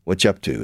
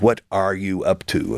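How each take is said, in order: First: "What you" fused as whatcha; English contraction. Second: "What are you" in separate words; full form. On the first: Teacher shows English contraction, "What you" as whatcha. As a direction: run "What you up to" together. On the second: Teacher expands the contraction, full "What are you". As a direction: pronounce every word of "What are you up to". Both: Shown as a demonstration. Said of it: "We do the same thing".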